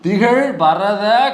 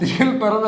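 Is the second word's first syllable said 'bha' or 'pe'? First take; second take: bha; pe. First: The second word begins with 'bha'. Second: The second word begins with 'pe'. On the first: The speaker calls it right. "திகழ் பரத கண்டம் அதில்" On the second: The speaker calls it wrong. "அல்ல அது திகழ் பெறத இல்ல"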